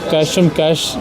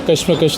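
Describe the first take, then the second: First: The syllables sound like English 'cash'. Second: The syllables sound like 'kush', short vowel. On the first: The title is read as a pun on money. The speaker calls it right. "इसको सबसे पहले तो इसको कैशम कैश कहेंगे" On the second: The title is read as the Urdu word for struggle. The speaker calls it wrong. "इसको कशमकश नहीं कहेंगे"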